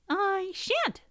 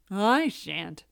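First: Very high, small refusal; squeaky mouse. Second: Grumbling rooster. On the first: Mouse refusing to make breakfast, squeaky. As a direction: squeak a sulky no. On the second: Cock refusing to make breakfast, grumbling. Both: A narrator's reading.

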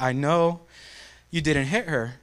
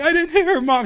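First: Soft, soothing mother voice; gentle imitation of a calming mom. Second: High-pitched mock tearful whine; hammed-up whimpering denial, pitched up; crying kid. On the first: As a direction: quietly reassure a crying child. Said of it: "She tells me to calm down". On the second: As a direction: protest to mom like a sobbing child. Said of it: "I'm, like, crying, sobbing".

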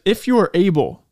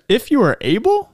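First: "If you are able!" said as a firm exclamation, falling; "If you are able" as an emphatic statement, falling. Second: Rising, doubtful "If you are able?"; a questioning "If you are able", rising at the end; skeptical question. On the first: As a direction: land "able" with a falling exclamation, not a question. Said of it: "There is a exclamation point". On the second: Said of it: "that's the tone of voice I read it in". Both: Shown as a demonstration.

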